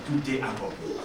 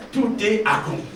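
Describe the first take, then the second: First: Softer and lower, a near-breathed last word; hushed quote of Jesus. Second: Said in the usual way. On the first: Retold or imitated. Pastor quoting Jesus on the cross, softer and lower. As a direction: let it fall away like a dying breath. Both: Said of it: "Jésus dit à son Père".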